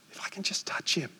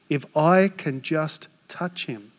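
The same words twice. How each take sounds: First: Hushed repeat of the inner thought; whisper. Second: Said in the usual way. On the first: Retold or imitated. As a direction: whisper it as a secret hope. Woman's inner words retold.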